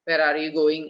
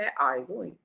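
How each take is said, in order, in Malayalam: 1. Pitch മുഴുവൻ പരന്നും ഒരേപോലെയും നിൽക്കുന്നു. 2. Pitch മുഴുവൻ ഉയർന്നും താഴ്ന്നും പോകുന്നു. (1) "ഇന്ത്യൻ ഇംഗ്ലീഷ് പറയുമ്പോൾ നോർമൽ ടോൺ ആയിരിക്കും" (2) "ആ ടോൺ മാറി ഏറി കുറഞ്ഞ് ടോൺ ഇങ്ങനെ കയറി കുറഞ്ഞ് വരും"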